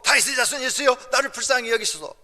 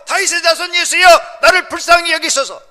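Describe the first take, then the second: First: It is said at normal, quieter volume. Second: It is shouted in a louder voice.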